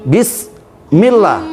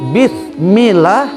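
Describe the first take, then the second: First: The consonant after bi is a plain s. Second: The consonant after bi is a th sound. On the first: The speaker calls it right. "menggunakan sin, Bismillah, benar" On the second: The speaker calls it wrong. "menggunakan huruf sa, maka itu salah"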